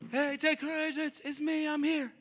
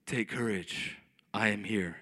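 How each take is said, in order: First: High, thin far-off call; distant calling. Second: Very low, solemn God voice; booming divine voice, mocked. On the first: Acted. Jesus calling to a boat in chaos, distant shout. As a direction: call across noisy water, held back in volume. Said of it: "that's probably more what it sounded like". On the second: Preacher mocks how Jesus didn't sound, deep and solemn. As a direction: intone it deep and grand, as parody. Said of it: "it wasn't that audible".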